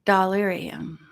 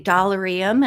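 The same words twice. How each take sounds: First: "Dollarium" with stressed "AIR" in the middle; alternative pronunciation. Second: "Dollarium" with an unstressed "er" in the middle; first pronunciation. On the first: Vlogger showing her other way of saying it, "Dollarium" with "AIR". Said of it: "and sometimes I say". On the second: Vlogger showing how she sometimes says it, "Dollarium" with "er". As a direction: say "Dollarium" as "doll-er-ee-um". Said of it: "Sometimes I say Dollarium". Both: Shown as a demonstration.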